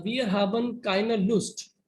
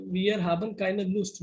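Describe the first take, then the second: First: Each German word spelled out slowly; slow careful reading. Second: Said in the usual way. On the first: Shown as a demonstration. Teacher reads the German sentence to students, slowly and carefully. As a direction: read it out slowly, word by word, for the class. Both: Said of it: "it says".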